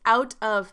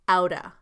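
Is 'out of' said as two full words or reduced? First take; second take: full; reduced. First: Both words are said fully and separately. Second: The words blend together as one reduced word. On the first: "Out of becomes outa" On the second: "Out of becomes outa"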